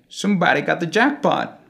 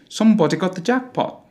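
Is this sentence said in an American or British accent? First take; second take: American; British. First: It is spoken in an American English accent. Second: It is spoken in a British English accent. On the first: "In American English" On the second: "And in British English, we will use the closed O sounds in all the words"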